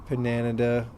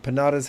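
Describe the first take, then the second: First: The name has an extra n sound inside. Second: The name has no extra n sound inside. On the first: The speaker calls it wrong. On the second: The speaker calls it right.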